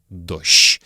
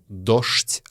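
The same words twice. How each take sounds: First: It uses the old Moscow pronunciation. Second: It uses the ordinary modern pronunciation. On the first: The speaker calls it right. "а дождь. Это старомосковское произношение" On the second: The speaker calls it wrong. "Не дождь"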